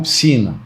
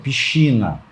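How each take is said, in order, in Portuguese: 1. O sc é pronunciado como um s simples. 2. O sc é pronunciado como sh. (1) "não piscina" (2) "é piscina"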